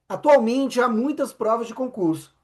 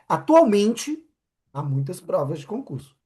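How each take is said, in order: First: The sentence runs on without a pause. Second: There is a pause after the first word. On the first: "quando eu não coloco essa vírgula aqui" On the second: "Observaram que eu tenho uma entonação?"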